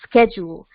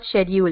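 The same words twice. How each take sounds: First: It is said in the American way. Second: It is said in a non-American way. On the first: The speaker calls it right. "correct American pronunciation" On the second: The speaker calls it wrong. "It's not schedule"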